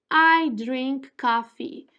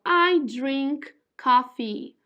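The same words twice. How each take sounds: Both takes have the same delivery.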